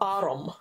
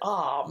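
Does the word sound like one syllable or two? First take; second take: two; one. First: An extra vowel splits the word into two syllables. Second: The word is said as one syllable. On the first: "as we do in Scotland" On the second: "if I was a received pronunciation speaker"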